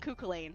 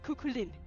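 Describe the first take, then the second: First: The last syllable sounds like 'lane'. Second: The last syllable sounds like 'lin'. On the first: The speaker calls it wrong. "I was calling him Kukulane" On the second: The speaker calls it right. "no, it's Lynn. It's Lynn"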